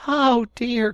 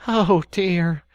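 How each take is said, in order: First: Higher, louder second cry; even more exasperated; deeper despair. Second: High, loud exasperated sigh; despairing. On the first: Rat despairing again at Mole. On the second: Rat despairing at Mole's obtuseness. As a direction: Rat giving up on Mole. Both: Acted. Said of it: "cried the Rat, in despair".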